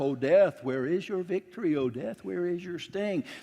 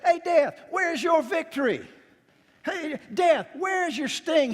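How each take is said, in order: First: It is said in a solemn, reverent tone. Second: It is said in a taunting, mocking tone.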